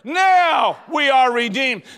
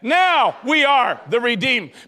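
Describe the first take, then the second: First: The word now is stressed. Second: The word now is not stressed.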